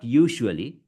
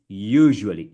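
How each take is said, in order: First: USUALLY with sh, YOO-shoo-alee; mispronounced. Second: USUALLY with buzzing zh, YOO-zhuh-lee; louder, drawn-out YOO in "usually"; correct model. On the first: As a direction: say "usually" wrongly with a hissed sh. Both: Shown as a demonstration. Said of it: "It's not usually".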